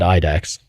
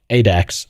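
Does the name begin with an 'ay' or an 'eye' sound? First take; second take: eye; ay. First: The name begins with an 'eye' vowel. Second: The name begins with an 'ay' vowel. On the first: The speaker calls it wrong. "then I started saying it wrong" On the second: The speaker calls it right. "I said it right"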